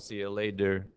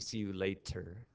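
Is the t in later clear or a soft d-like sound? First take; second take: d-like; clear. First: The t in later is a soft d-like sound. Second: The t in later is a clear t sound. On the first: "Why do we say it as often" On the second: "Some people may pronounce it correctly"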